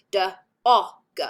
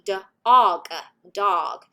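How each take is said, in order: First: Said in the usual way. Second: English speaker's rough American accent, louder open vowel in "O"; attempted American accent. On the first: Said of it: "so in my accent". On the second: Shown as a demonstration. Lecturer demonstrates dog for American students, attempted American accent. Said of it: "in the American accent".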